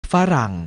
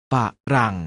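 First: Said in the usual way. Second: ฝะรั่ง split into ฝะ and รั่ง; short ฝะ, tiny gap, then รั่ง; syllable by syllable. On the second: Shown as a demonstration. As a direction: sound out ฝะรั่ง in two beats. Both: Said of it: "อ่านว่า".

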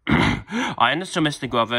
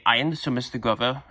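First: Second take. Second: Said in the usual way. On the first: Acted. Repeated after clearing throat.

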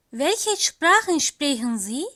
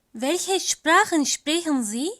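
No difference in how they are said.

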